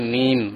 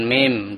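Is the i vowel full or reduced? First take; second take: full; reduced. First: The i vowel is full and clear. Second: The i vowel is reduced and unclear. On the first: The speaker calls it right. "kasrohnya disempurnakan" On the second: The speaker calls it wrong. "bukan mim"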